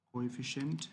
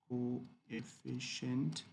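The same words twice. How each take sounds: First: Said in the usual way. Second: Coefficient very slowly, syllable by syllable; slow sounding-out. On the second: Shown as a demonstration. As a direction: stretch out coefficient as co-e-ffi-cient. Teacher sounds out term slowly.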